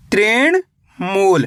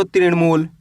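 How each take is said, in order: First: Slow, syllable by syllable, तृण then मूल with a gap; split into parts. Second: Said in the usual way. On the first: Shown as a demonstration. Teacher spelling the word out slowly for children. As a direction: break तृण मूल into two slow halves. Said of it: "पहले तृण पढ़ो, उसके बाद मूल पढ़ो". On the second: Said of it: "दोनों मिला दो".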